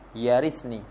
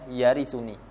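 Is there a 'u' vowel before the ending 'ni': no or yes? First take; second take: no; yes. First: The verb has no vowel before the ending. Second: The verb has a 'u' vowel before the ending. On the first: It is the result of the request. "bil jazmi ala ja'lihi jazaan lil amr" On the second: It describes the heir. "Birraf'i ... yarisuni sifatan liwaliyan"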